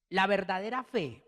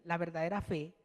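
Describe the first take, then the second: First: Said in the usual way. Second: Verdadera stressed, la verdadera fe said softer and weighty; emphatic repeat. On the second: Shown as a demonstration. Preacher repeats la verdadera fe softly for his congregation. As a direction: lean on verdadera in a hushed, solemn repeat. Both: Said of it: "óigase bien".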